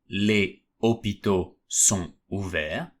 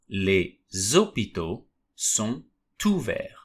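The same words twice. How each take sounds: First: Final consonants stay silent; words are not linked. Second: Final consonants are sounded, linking into the next word. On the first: The speaker calls it wrong. "instead of saying" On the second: The speaker calls it right. "I should say"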